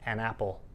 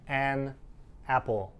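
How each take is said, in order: First: The two words are squished together. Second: The two words are said separately. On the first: The speaker calls it right. "We say an apple. ... we squish those words together" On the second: The speaker calls it wrong. "We don't say an apple"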